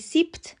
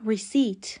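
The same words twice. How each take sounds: First: The p sound is pronounced. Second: The p sound is not pronounced. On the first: The speaker calls it wrong. "receipt یا receipt هر دو غلط هستن. پی در اینجا سایلنته" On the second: The speaker calls it right. "میگیم receipt"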